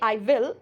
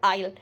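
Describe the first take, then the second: First: Both words are said in full, separately. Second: The words are joined into one short syllable. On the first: The speaker calls it wrong. "Not say I will" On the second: The speaker calls it right. "I always use I'll"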